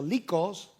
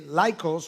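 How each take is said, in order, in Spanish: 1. El nombre se pronuncia de forma española. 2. El nombre se pronuncia de forma no española.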